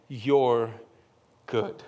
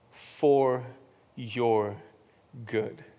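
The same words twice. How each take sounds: First: Said in the usual way. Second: "For your good" slowly, each word set apart with pauses; stress on For your good. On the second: Shown as a demonstration.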